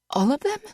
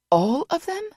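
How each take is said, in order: First: High rising disbelief on "them"; croaked. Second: High, louder rise on "them"; disbelieving cry. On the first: Vanessa reading the list, croaking disbelief. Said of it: "she croaked". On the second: Vanessa asking Boss, high disbelieving rise. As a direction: let "all of them?" jump up high. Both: A narrator's reading.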